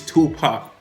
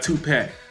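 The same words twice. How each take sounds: First: The name is said in his own natural way. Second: The name is said in an imitated outsider way. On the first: The speaker calls it right. "it's [name]" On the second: The speaker calls it wrong. "Not Tupac"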